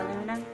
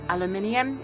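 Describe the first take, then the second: First: It is said the American way. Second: It is said in the speaker's own accent. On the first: "I guess Americans say aluminum" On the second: "Aluminium is what I'd say"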